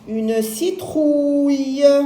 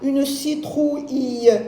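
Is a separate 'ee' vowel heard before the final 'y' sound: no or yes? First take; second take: no; yes. First: The I is silent, ending in a plain y-sound. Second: A separate ee vowel is sounded before the ending. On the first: The speaker calls it right. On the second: The speaker calls it wrong.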